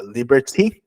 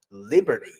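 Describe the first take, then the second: First: "liberty" British-style with a clear T. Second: "liberty" American-style, T softened to a quick D. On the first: Teacher contrasting accents, British "liberty" with clear T. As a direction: say "liberty" the British way, T fully sounded. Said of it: "Você pronuncia no inglês britânico". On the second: Teacher contrasting accents, American "liberty" with reduced T. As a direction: say "liberty" the American way, li-ber-dee. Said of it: "no inglês americano, você pronuncia". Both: Shown as a demonstration.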